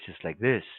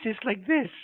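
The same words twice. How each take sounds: First: The voice is pitched low. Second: The voice is pitched high. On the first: "a deep voice is like this" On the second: "a high voice is like this"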